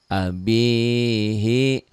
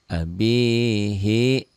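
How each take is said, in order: Both takes have the same delivery.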